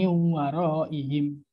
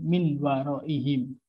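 First: The n sound merges into the following w. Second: The n sound is pronounced clearly before w. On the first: The speaker calls it right. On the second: The speaker calls it wrong.

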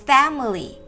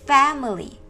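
The two takes are said the same way.

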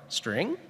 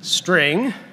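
First: The pitch rises at the end of the word. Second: The pitch falls at the end of the word. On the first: The value might be missing. "Or string?" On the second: The value is always a string. "the inflection's very important. String. I always have a string"

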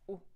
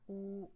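First: The vowel is held only briefly. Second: The vowel is held for longer. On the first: "they come as short vowels" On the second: "and long vowels"

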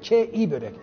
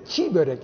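First: The first word has no soft g, a short vowel. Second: The first word has a soft g lengthening the vowel. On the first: It means beautiful pastry. The speaker calls it right. "G'si yumuşak yok" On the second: It means raw pastry. The speaker calls it wrong. "Ben öyle yanlış biliyormuşum"

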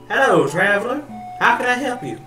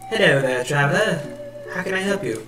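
First: It is said in a country accent. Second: It is said in a British accent.

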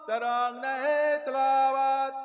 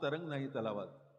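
First: It is shouted forcefully and the words blur. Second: It is spoken plainly and the words are clear. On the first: The listeners cannot make out the words. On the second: The words can be understood.

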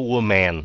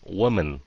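First: The second syllable sounds like man. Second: The second syllable sounds like min. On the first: The speaker calls it wrong. "Đừng có woman, nó không phải là man" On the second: The speaker calls it right. "nó là mình"

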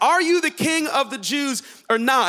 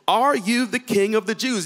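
First: It is said with an impatient, demanding attitude. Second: It is read in a plain, neutral tone.

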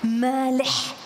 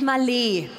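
First: The final h is a rough, guttural ch sound. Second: The e is long and the final h is silent. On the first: This is the original Arabic pronunciation. "das H hinten ist ein Ech" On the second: This is an easier version for German speakers. "Ein langes E und ein stummes Ech"

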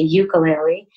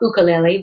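First: It is pronounced the mainland American way. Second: It is pronounced the Hawaiian way. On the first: This is how people in mainland America say it. "but in America we say ukulele" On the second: This is how locals in Hawaii say it. "We call it ukulele"

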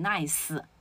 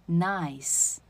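First: An extra vowel sound follows the final s. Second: The word ends cleanly on a voiceless s. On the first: The speaker calls it wrong. "有的同学他习惯性的会念成nice" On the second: The speaker calls it right. "没有思，是nice"

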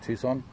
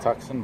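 First: The name is said in an American way. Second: The name is said in a non-American way. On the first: This is how people in America say it. "in America you hear people say Tucson" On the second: This is how the speaker says it. "I would pronounce that as Tucson"

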